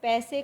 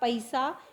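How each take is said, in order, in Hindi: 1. पहला स्वर एक ही स्वर है। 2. पहला स्वर संध्यक्षर है। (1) "हिंदी में ए और ओ का उच्चारण किया जाता है" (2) "इस तरह से परिवर्तन हो जाता है"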